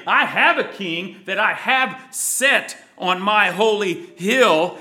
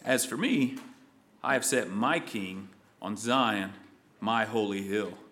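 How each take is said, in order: First: Louder, bold ringing proclamation; loud and triumphant decree; proclaimed decree. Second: Low, soft, solemn words of God; quietly solemn decree; hushed divine voice. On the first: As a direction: declare it as a king on his hill. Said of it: "and in wrath saying". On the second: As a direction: speak God's line in a low, soft voice. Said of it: "Let's see what he says". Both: Acted.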